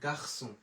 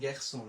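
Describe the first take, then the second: First: The first vowel is an open 'ah' sound. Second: The first vowel is a fronted 'ya' sound. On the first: The speaker calls it right. "আমার আ কে কখনো এ বলা যাবে না" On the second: The speaker calls it wrong. "অনেকে কিন্তু বলেন গ্যাকসো"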